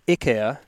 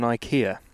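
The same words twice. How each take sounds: First: IKEA is said the original way. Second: IKEA is said the usual local English way. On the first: The speaker calls it right. "to pronounce it correctly" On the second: The speaker calls it wrong. "we get it wrong over here"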